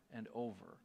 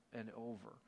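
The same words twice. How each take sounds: The two takes are said the same way.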